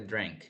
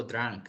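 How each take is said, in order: First: 'drank' with an E-like vowel, drenk; correct pronunciation demo. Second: 'drank' wrongly said with an A vowel; wrong pronunciation demo. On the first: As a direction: colour the vowel of 'drank' towards E. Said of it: "como con una E". ('drank' pronunciado como con una E) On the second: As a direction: say 'drank' with an open 'ah'. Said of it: "No digo". ('drank' mal pronunciado, con A) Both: Shown as a demonstration.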